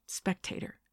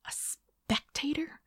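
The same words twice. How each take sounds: First: Said in the usual way. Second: Slow echo swooping high into a question; incredulous. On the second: A narrator's reading. Woman repeating her date's word, incredulous. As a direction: draw out "spectator" in disbelief.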